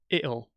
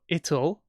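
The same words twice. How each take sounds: First: The t is replaced by a glottal stop. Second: The t sound is pronounced clearly.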